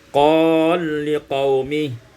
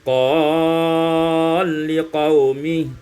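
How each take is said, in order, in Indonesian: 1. Vokal yang dipanjangkan ditahan sebentar. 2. Vokal yang dipanjangkan ditahan dengan panjang sedang.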